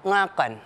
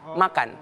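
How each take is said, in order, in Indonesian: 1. Kata ini diawali dengan bunyi ng. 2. Kata ini diawali dengan bunyi m.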